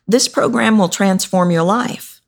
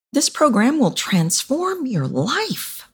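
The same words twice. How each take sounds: First: Said in the usual way. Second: "program" lifted high, slow and soft; stress words, softer. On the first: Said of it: "Do you hear the difference in that?". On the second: Shown as a demonstration. Coach demonstrates emphasis on the sales line, slow and soft. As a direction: lean into "program" and "transform", slowing down and going softer. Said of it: "All I did was add stress words. I added a little bit of soft".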